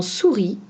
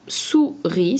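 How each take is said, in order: First: Said in the usual way. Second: "souris" broken in two, sou, then ri; split into syllables. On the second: Shown as a demonstration. Teacher showing pupils the two syllables of "souris", split apart. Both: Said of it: "c'est un mot avec deux syllabes".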